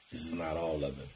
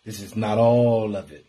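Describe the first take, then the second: First: Much softer, lower repeat; soft echo. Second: Said in the usual way. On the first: Real, not acted. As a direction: let it fall away like an echo. Repeated line, then dropped to quiet.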